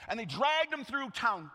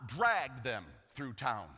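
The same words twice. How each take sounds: First: Said in the usual way. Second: Dragged them through town stretched very slow; slow, drawn-out. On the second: Shown as a demonstration.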